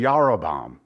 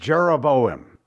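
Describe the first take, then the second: First: The name begins with a Y sound. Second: The name begins with a J sound. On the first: This is the original Hebrew form. The speaker calls it right. "it's really Yarobam. That's how you'd say it in the Hebrew" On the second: This is the common English reading. The speaker calls it wrong. "We read Jeroboam"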